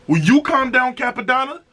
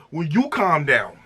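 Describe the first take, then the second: First: Playful high-pitched plea to the rapper; pleading mock plea. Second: Said in the usual way. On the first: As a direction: beg him to chill, voice jumping up high. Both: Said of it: "I said".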